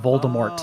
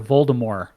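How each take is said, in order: First: The final T is clearly pronounced. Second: The final T is soft and silent.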